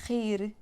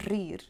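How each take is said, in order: First: "rir" with a throaty R; back R. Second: "rir" with trilled R; old rolled R. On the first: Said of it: "Instead of saying". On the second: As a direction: roll the R in "rir". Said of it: "somebody would say rir". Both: Shown as a demonstration.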